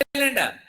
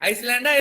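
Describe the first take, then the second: First: No s sound is heard before the l. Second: An s sound is heard before the l. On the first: The speaker calls it right. "As ఎస్ is silent" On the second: The speaker calls it wrong. "ఇదో ఐస్లాండా ఐలాండా?"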